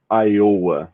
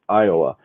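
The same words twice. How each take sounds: First: It is said with Brazilian Portuguese sounds. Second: It is said with English sounds. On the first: The speaker calls it wrong. "people in Brazil even pronounce it like Iowa" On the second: The speaker calls it right. "the correct pronunciation is Iowa"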